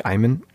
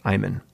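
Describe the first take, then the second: First: "Ayman" said with the teacher's long "eye" vowel; teacher's mispronunciation. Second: "Ayman" said with a long "eye" sound, like the teacher did; teacher saying "Ayman" wrong, with a long "eye"; teacher's mispronunciation. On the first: Boy recalls teacher's version of his name, "Ayman" starting "eye". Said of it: "for me, it was like". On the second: Kid mimics teacher mispronouncing his name, "Ayman" with an "eye". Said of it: "her pronunciation of my name was". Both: Retold or imitated.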